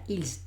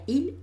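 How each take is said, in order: First: The final s sound is pronounced. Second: The final s sound is silent. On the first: The speaker calls it wrong. "no se pronuncia ils" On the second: The speaker calls it right. "esa S no la escucharía"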